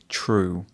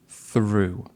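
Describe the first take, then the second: First: The word begins with a t sound. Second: The word begins with a th sound. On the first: The speaker calls it wrong. "they would say true" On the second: The speaker calls it right. "I think she wanted to say through"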